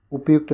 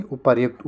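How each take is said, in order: First: उपयुक्त without an r; wrong, no r. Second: उपर्युक्त with r before य; correct r sound. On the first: Teacher rejects the word, no r in उपयुक्त. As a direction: go straight from प to य in उपयुक्त. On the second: Teacher corrects the word, audible r in उपर्युक्त. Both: Shown as a demonstration. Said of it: "उपयुक्त नहीं".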